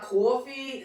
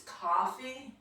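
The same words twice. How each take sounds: First: "coffee" with a rounded aw, like cawfee; slow Queens cawfee for "coffee"; New York vowel. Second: "coffee" with an open ah, like cahfee; slow, softer "coffee", first vowel opened to ah; speech-class cahfee for "coffee"; corrected vowel. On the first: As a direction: drag the first vowel of "coffee" into aw. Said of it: "when we say our vowels". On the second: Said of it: "It's not coffee, it's". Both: Shown as a demonstration.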